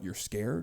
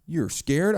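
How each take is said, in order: First: Mock hushed disbelief. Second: "You're scared?" thrown out louder with a scornful rise; mock loud disbelief. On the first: Mocking a man's fear, softly incredulous. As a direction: quietly scoff the question "You're scared?". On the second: Mocking a man's fear, louder and scornful. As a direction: scoff at him openly, louder. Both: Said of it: "for guys to be like".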